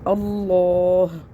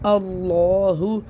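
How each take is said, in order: First: The word ends on a consonant, no vowel. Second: The word ends with a short 'u' vowel. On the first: "वफ़ की सूरत में पढ़ेंगे" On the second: "हाँ पेश हु"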